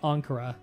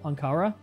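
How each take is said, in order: First: The stress is on the first syllable. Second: The stress rises onto the second syllable. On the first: It is read off the page without hearing it. The speaker calls it wrong. "someone who just read it on paper would probably say" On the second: It follows a native-like pronunciation. The speaker calls it right. "I put the enunciation in the second syllable"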